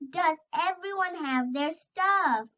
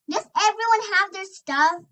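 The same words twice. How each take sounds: First: It is said calmly in a normal voice. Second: It is yelled loudly and excitedly.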